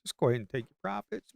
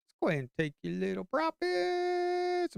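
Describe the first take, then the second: First: Said in the usual way. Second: Much higher, teasing sing-song; high mock-sweet coaxing voice. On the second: Shown as a demonstration. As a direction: lift it way up, coaxing.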